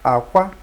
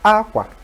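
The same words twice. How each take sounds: First: It carries the tone pattern meaning egg. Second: It carries the tone pattern meaning clothes. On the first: The word means egg. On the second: The word means clothes. "that's clothes"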